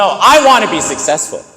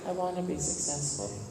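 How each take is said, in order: First: It is said strongly, with conviction. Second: It is said casually, without conviction. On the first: The speaker is fully committed to the goal. The speaker calls it right. "You say it with what we call conviction, strength, determination" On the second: The speaker is not really committed to the goal. The speaker calls it wrong. "you don't just say"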